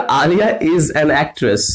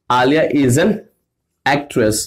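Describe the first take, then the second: First: Slow, even dictation; slow example read. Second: Word by word with pauses; chunked example. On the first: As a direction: read the example sentence slowly. (धीमे उदाहरण पढ़ना) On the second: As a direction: break the sentence into pieces. (टुकड़ों में रुक-रुक कर) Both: Shown as a demonstration. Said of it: "मैंने कहा".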